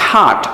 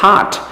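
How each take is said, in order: The two takes are said the same way.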